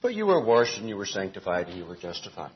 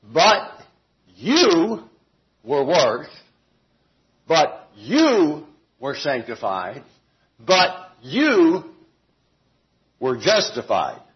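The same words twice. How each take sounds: First: Softer and fast, all in one breath; quick flat reading. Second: Each "you" punched, slow, with pauses between the phrases; emphatic reading. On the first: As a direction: run it together, no emphasis. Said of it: "as the E S V and some other translations put". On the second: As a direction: hammer every "you", separate and slow. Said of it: "I believe that it's an emphatic statement". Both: Shown as a demonstration.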